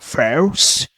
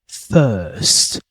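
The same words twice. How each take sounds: First: It has an r sound, in an American accent. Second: It has no r sound, in a British accent. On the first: The speaker calls it wrong. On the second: The speaker calls it right.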